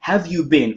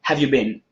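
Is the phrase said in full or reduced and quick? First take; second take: full; reduced. First: Each word is said fully and clearly. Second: The words are shortened and run together quickly.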